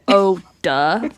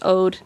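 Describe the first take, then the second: First: It is said as two syllables. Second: It is said as one syllable. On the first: The speaker calls it wrong. "like D U H. Also not good" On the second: The speaker calls it right. "It's just ode"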